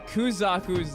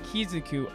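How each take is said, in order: First: The name begins with a Ku sound. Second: The name begins with a Ki sound. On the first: The speaker calls it right. "I know I've been mispronouncing Kuzaku's name" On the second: The speaker calls it wrong. "I pronounce it Kizaku"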